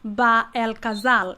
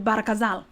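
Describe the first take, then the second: First: The name has a separate 'el' syllable in the middle. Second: The name runs together with 'ra' in the middle. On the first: The speaker calls it wrong. "the proper way of pronouncing it is not" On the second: The speaker calls it right. "It's actually"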